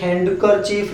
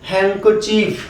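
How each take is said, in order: First: A 'd' sound is heard after 'han'. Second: No 'd' sound is heard after 'han'. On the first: The speaker calls it wrong. "काफी लोग इसको बोलते हैं हैंडकरचीफ, ये हैंडकरचीफ नहीं है" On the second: The speaker calls it right. "डी क्या है, साइलेंट है"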